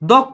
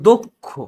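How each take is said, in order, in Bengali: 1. প্রথম স্বরধ্বনিটি খোলা 'aw' ধ্বনি। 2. প্রথম স্বরধ্বনিটি বদ্ধ 'o' ধ্বনি। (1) "দক্ষ না" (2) "অয়ের উচ্চারণ ও এর মতো হবে"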